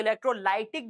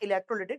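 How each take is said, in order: First: The third syllable has an 'eye' vowel, 'lie'. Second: The third syllable has a short 'i' vowel, 'lee'. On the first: "कुछ लोग इसको इलेक्ट्रोलाइटिक decomposition भी पढ़ते हैं" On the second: "इलेक्ट्रोलिटिक decomposition अपन पढ़ेंगे"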